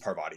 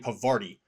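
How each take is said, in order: First: The r sound closes the first syllable. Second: The r sound closes the second syllable. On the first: The speaker calls it right. "it is Parvati" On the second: The speaker calls it wrong. "I was saying Pavarti, and that's not right"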